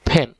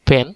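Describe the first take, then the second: First: The p has a strong puff of air. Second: The p is plain, without a puff of air. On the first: The speaker calls it right. "এটা পেন না, এটা হবে ফ্যান" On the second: The speaker calls it wrong. "একটা হচ্ছে পেন, যেটা আমরা বলি"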